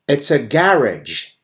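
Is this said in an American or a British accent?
British. It is said in a British accent. The speaker calls it wrong.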